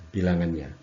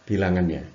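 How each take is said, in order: The two takes are said the same way.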